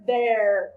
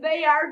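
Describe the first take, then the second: First: The words are joined into one contracted syllable. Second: Two separate words are said in full.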